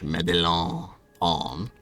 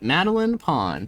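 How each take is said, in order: First: The name is said with a French accent. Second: The name is said with a plain English accent.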